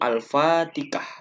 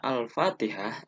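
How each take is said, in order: First: The word has Javanese-style substituted sounds. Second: The word has its standard Arabic sounds. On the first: The speaker calls it wrong. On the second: The speaker calls it right.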